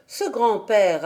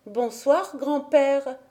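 First: Said in the usual way. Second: Put-on lightly raised child voice, a bright hello; a small girl greeting her grandfather, lightly voiced; little girl's greeting. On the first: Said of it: "narration resumes". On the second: A narrator's reading. Heidi greets her grandfather, a lightly voiced little girl. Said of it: "lui tendit la main en disant".

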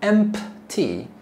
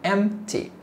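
First: "empty" split as EMP-tee with an audible P; P pronounced. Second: "Empty" said as EM-tee, without the P; silent P. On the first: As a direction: sound out the P in "empty", slowly, as the wrong way. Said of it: "Notice we don't say empty". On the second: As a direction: drop the P from "Empty", M straight into T. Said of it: "P is silent". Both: Shown as a demonstration.

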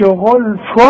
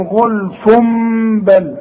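First: غلف ending in a clear "fun", no m; wrong plain tanween. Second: غلف بل joined, the n turned into a held m; iqlab with ghunna. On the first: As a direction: sound a clear n at the end of غلف, as a mistake. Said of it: "اذا ما نقولش". (نطق تنوين «غلف» نونًا ظاهرة خطأً) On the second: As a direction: hum "ghulfummm" slowly into بل. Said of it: "اقلاب لهذا التنوين". (إقلاب تنوين «غلف» ميمًا بغنة قبل «بل») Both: Shown as a demonstration.

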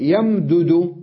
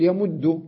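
First: يمدد with both dals voiced apart, yam-du-du; يمدد said slowly with the dal doubled separately; unmerged form. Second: يمد with one stressed doubled dal, ya-mudd; يمد as a single geminated dal; merged form. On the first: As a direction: spell out يمدد as yam-dudu. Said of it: "أدغم الدال في الدال". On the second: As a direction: say يمد with the dals fused into one shadda. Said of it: "أقول يمد". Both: Shown as a demonstration.

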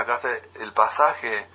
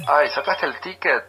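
First: Slow, plain "¿Sacaste el pasaje?"; proper version. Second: Higher, affected "Ay" leading into "ticket"; mock trendy speaker. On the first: Shown as a demonstration. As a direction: model the correct Spanish word calmly and slowly. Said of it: "En vez de". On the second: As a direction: tease people who say "ticket" instead of "pasaje". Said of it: "otra cosa que dice".

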